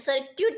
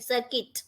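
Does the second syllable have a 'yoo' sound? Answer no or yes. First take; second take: yes; no. First: The second syllable has a 'yoo' sound. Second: The second syllable has a short 'i' sound. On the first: The speaker calls it wrong. "સર્ક્યુટ નહીં" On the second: The speaker calls it right. "સર્કિટ કહે છે"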